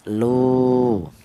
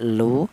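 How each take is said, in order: First: The vowel is held twice as long. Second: The vowel is held for a short beat. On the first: "kalau dua harokat panjang dua kali lipat" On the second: "Kalau satu harokat pendek"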